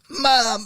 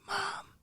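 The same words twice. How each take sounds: First: It is a loud, yelled whisper. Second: It is a quiet whisper.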